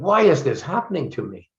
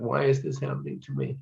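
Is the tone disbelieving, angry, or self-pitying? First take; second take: disbelieving; self-pitying. First: It sounds disbelieving. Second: It sounds self-pitying.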